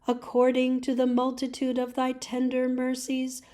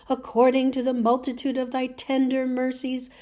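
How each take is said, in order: Both takes have the same delivery.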